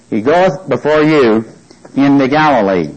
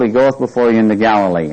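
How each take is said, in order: First: "He goeth before you into Galilee" said firmly, each word weighted; emphasized. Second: Said in the usual way. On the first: Shown as a demonstration. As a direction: lean on "goeth" and "Galilee" to drive it home. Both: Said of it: "I'm emphasizing".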